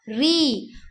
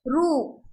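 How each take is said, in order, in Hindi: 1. इस अक्षर को 'i' स्वर के साथ बोला जाता है। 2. इस अक्षर को 'u' स्वर के साथ बोला जाता है। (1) "लेकिन हिंदी में क्या आएगा? री" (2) "इसे रू कहते हैं हम लोग मराठी में"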